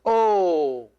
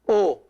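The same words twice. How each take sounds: First: The O vowel is long. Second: The O vowel is short. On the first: "this big O, is pronounced O" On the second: "this O alone, this one, is pronounced O"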